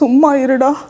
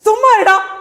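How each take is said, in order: First: It is said in a sad, tearful tone. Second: It is said in an angry tone. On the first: "அழுதுட்டு. சோகமா" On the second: "சொல்ல போறீங்க கோவமா"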